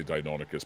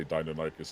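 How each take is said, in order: First: Deinonychus said dye-NON-uh-kus; speaker's own pronunciation. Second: Deinonychus said dye-nuh-NYE-kus; other people's pronunciation. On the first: Telling the co-host their preference, Deinonychus as dye-NON-uh-kus. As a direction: hit NON in Deinonychus, short "o". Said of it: "I say Deinonychus". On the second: Showing how some people say it, Deinonychus as dye-nuh-NYE-kus. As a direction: make the third syllable of Deinonychus rhyme with "eye". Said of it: "some people like to say". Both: Shown as a demonstration.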